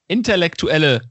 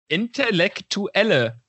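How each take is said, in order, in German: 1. Das Wort wird normal schnell gesagt. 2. Das Wort wird sehr langsam gesagt.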